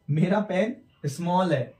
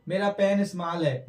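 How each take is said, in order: First: Slow, with rounded 'aw' in स्मॉल; स्मॉल rhyming with hall, unhurried; correct pronunciation. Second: स्मॉल with long 'aa', as 'smaal'; unrounded 'aa' in स्मॉल; wrong pronunciation. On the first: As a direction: say स्मॉल as English 'small'. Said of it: "ओ की तरह sound आ रहा है". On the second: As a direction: misread स्मॉल with the vowel of father. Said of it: "इसे स्मॉल नहीं बोलेंगे". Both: Shown as a demonstration.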